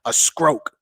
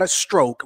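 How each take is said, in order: First: The T sound in stroke is dropped. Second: The T sound in stroke is pronounced.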